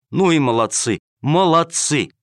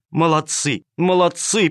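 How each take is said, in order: First: Loud praise. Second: Joyful praise. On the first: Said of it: "громко расхваливала их". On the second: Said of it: "повторяла она". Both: Acted.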